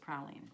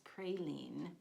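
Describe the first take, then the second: First: It is said with a British pronunciation. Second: It is said with an American pronunciation. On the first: "the British is praline" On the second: "American pronunciation is praline"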